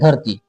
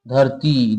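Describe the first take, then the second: First: The final vowel is cut short. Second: The final vowel is drawn out long. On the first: The speaker calls it wrong. "ऐसा नहीं कोई करता है" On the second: The speaker calls it right. "देखिए लंबा खींच रहा है"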